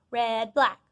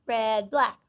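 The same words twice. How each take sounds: The two takes are said the same way.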